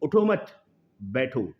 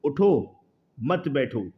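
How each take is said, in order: First: "उठो मत" raised as one command, pause, falling "बैठो"; comma after मत. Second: "उठो" as a firm command, pause, "मत बैठो"; comma after उठो. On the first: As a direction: join "उठो मत", break, then drop on "बैठो". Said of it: "यहाँ हटा के यहाँ कॉमा लगा दूँ". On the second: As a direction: break after "उठो", keep "मत बैठो" together. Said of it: "अगर मैं यहाँ कॉमा लगा दूँ". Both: Shown as a demonstration.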